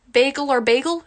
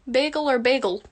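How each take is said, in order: First: Second "bagel" said as "bay-gel" with a long ay. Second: "bagel" said first with a plain short "beg" vowel; first "bagel" as "beggle". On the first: Answering a viewer's bagel question, second "bagel" as bay-gel. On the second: Answering a viewer's bagel question, first "bagel" as beggle. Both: Shown as a demonstration.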